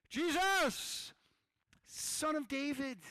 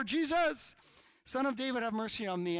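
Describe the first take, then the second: First: Loud, high, drawn-out call to Jesus; crying out. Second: High, full-volume shout to Jesus; yelling even louder. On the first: Blind beggar to passing Jesus, crying out. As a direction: call out desperately over a crowd. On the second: Blind man begging Jesus for mercy, yelling louder. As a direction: shout all the more over the crowd. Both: Acted. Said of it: "he just starts yelling louder".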